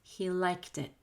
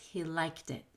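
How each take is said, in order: The two takes are said the same way.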